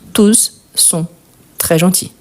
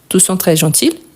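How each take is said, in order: First: It is said slowly. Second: It is said fast.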